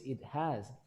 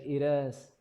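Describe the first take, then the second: First: The h at the start of has is pronounced. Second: The h at the start of has is dropped. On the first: The speaker calls it right. "you have to pronounce has" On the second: The speaker calls it wrong. "you said it has"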